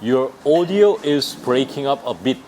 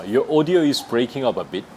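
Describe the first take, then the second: First: Very slow, every word spaced; teacher modelling slowly; slow demo. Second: Slow again, audio stressed; careful teacher repeat; slow demo. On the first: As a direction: spell it out for learners. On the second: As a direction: model the phrase clearly. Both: Shown as a demonstration. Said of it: "이렇게 하면 돼요".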